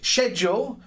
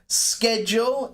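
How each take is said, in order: First: The word is said the British way. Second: The word is said the American way. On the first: "of course, uh, British" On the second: "it's mostly from American English"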